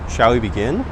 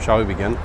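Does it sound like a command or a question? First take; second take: question; command. First: It is said as a real question. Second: It is said as a firm command. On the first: The listener is asked whether to start. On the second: The listener is told to start.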